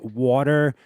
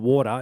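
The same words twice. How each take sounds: First: It is said with an American accent. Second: It is said with an Australian accent.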